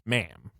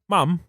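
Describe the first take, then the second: First: It is said in an American accent. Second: It is said in a British accent. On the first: "what the Americans would say is ma'am" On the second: "But in Britain, you say that like"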